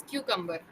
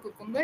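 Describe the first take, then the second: First: "cucumber" starting with "kyoo"; correct pronunciation. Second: "cucumber" with a first syllable like "koo"; wrong pronunciation. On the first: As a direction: say "cucumber" with a y-glide, KYOO-kum-ber. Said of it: "it is cucumber". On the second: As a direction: say "cucumber" starting koo, with no y-glide. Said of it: "but it is not cucumber". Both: Shown as a demonstration.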